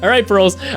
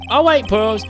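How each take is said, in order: First: It is said in a different character voice. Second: It is said in a young girl's character voice. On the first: The line is voiced as the character who is really speaking. The speaker calls it right. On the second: The line is voiced as if the girl on screen were talking. The speaker calls it wrong.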